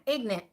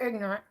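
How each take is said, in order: First: It is said in an exaggerated put-on accent. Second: It is said in her normal voice.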